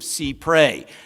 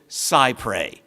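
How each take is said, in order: First: The first syllable sounds like 'see'. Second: The first syllable sounds like 'sigh'. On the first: The speaker calls it right. "this is the practice of see pray" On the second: The speaker calls it wrong. "I have heard many people I respect pronounce it cypre. That is technically not accurate"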